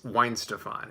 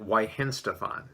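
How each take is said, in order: First: The middle 'hen' syllable is left out. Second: The middle 'hen' syllable is pronounced. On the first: The speaker calls it right. "it's Weinstefan. At least that's how she pronounced it" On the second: The speaker calls it wrong. "I believe I pronounced it Weihenstefan. No"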